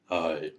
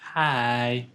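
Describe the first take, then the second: First: It is said in a put-on deep voice. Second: It is said in a normal voice.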